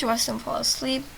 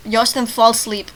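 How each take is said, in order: First: Said in the usual way. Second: "fall asleep" punched louder; emphatic repeat. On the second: Shown as a demonstration. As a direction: repeat it pointedly, hitting "fall". Repeats line mocking its wording.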